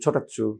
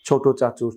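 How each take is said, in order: First: The words merge into one shortened word. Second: Both words are said fully and separately.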